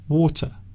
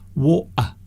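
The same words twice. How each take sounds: First: The middle consonant is a clear t. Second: The middle consonant is left out entirely. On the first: "some people say water with the T sound" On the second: "some people miss the the middle sound out completely"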